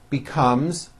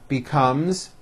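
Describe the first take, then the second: Both takes have the same delivery.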